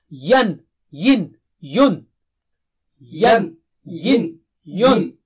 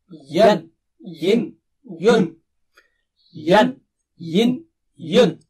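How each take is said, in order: The two takes are said the same way.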